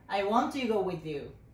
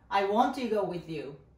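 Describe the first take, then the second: No difference in how they are said.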